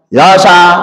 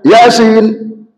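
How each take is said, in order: First: The word is clipped, ending as "ya sa". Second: The word is said in full as "yasin". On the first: A broken reading machine misreads it. The speaker calls it wrong. "kalau sudah error mesinnya, ya sa dibaca ya sa" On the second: This is how it should be read. The speaker calls it right. "semestinya yasin"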